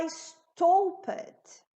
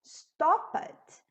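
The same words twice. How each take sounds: First: "stopped" with a long O, like "stowped", slow; wrong long O. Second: "stopped" with a short O, "stop-t"; correct short O. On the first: Teacher shows the wrong reading if P is missing, long O. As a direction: stretch the o in "stopped" into "stow". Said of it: "eu vou falar stopped". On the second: Teacher gives the correct form after the wrong one. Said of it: "é". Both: Shown as a demonstration.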